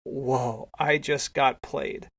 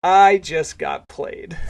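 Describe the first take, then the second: First: Retold stunned disbelief, softer and drawn out; dumbstruck. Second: Very slow, louder stunned repeat; retold astonishment, drawn out and emphatic; dumbstruck disbelief. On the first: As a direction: let it sink in slowly, subdued. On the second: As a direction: stretch out the I in amazed realization. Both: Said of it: "Chris is just dumbstruck".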